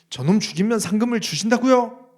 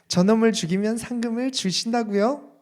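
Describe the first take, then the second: First: It is said in an angry, indignant tone. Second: It is said in a bright, cheerful tone. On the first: He is outraged that a reward is even needed. "엄청 화가 나서" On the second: He is excited about getting rich from the reward. "엄청 밝은 표정으로"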